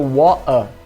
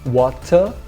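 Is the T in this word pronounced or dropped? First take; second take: dropped; pronounced. First: The T becomes a glottal stop, R dropped. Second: The T is pronounced and the final R dropped. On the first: "no norte da Inglaterra seria water" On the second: "no sul da Inglaterra seria water"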